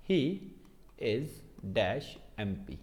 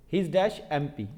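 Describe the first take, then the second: First: Each word spaced out slowly, dropping soft; slow dictation. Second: Said in the usual way. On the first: Shown as a demonstration. Teacher dictating the example sentence slowly, word by word. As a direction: read the sentence off the board word by word. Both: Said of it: "जैसे मैंने लिखा".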